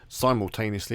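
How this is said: It is said with an American pronunciation.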